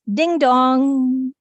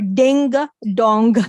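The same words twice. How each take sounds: First: The g is held back in the nose. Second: The g is released as a clear stop. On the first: The speaker calls it right. "It's ding dong" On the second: The speaker calls it wrong. "We don't say ... or ding dong. So don't emphasize on g"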